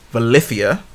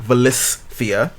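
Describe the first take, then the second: First: The name is said without an S sound. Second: The name is said with an S sound. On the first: The speaker calls it right. "I think it's pronounced Valithia" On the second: The speaker calls it wrong. "and not Valithia"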